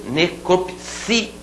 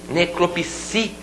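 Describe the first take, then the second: Both takes have the same delivery.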